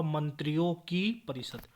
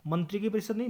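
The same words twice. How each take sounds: First: Said in the usual way. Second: मंत्री की परिषद said as the wrong form; the wrong मंत्री की परिषद, marked with a small rise; wrong form shown. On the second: Shown as a demonstration. Teacher showing students the wrong form, slightly raised.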